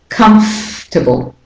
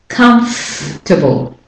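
No difference in how they are said.

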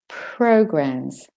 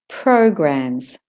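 Both takes have the same delivery.

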